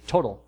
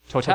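First: It is said with an American English pronunciation. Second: It is said with a French pronunciation. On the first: "to us in America, it would be Total" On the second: "But the French pronounce it Total"

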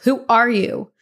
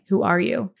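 First: It is said loudly. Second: It is mumbled quietly.

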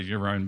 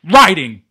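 First: The phrase is mumbled quietly and casually. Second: The phrase is shouted with heavy emphasis. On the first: It is a throwaway remark. "you could, like, very mumble say" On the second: It is an aggressive outburst. "he really puts the emphasis on"

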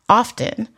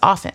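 First: The word is said with a T sound. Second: The word is said without a T sound. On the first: The speaker calls it wrong. "put stick T's where they don't belong" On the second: The speaker calls it right. "the T is silent. The word is often"

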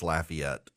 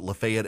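First: The name is said the Louisiana way. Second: The name is said the Georgia way. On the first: The speaker calls it right. "it's Lafayette" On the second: The speaker calls it wrong. "Those of you in Georgia who pronounce it Lafayette"

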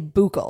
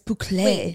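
First: The word is pronounced as it is spelled. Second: The word is pronounced differently from its spelling. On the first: The speaker calls it wrong. "We both pronounced it the way that it's read" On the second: The speaker calls it right. "you obviously like became classy in the time since"

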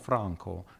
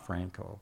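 First: The name is said with Italian pronunciation. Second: The name is said with English pronunciation. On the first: This is how the owner says his own name. The speaker calls it right. "mi chiamo Franco" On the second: This is how an outsider said the name. The speaker calls it wrong. "not Franco"

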